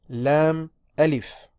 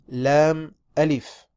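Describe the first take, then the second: The two takes are said the same way.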